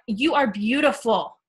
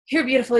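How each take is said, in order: First: It is said warmly, with confident belief. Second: It is said flatly, without real belief.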